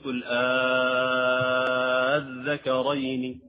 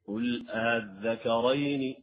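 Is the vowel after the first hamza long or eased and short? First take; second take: long; eased short. First: The second hamza becomes a long drawn-out vowel. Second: The second hamza is softened without lengthening. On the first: "فهذا مد كلمي مثقل يلحق بالمد الكلمي المثقل" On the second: "يقرأ بالتسهيل لا يقرأ بالمد"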